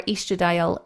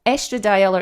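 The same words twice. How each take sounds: First: Estradiol said EE-struh-dye-ol; long-e pronunciation. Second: Estradiol said ESS-truh-dye-ol; short-e pronunciation. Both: Shown as a demonstration. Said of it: "depending on how you want to pronounce it".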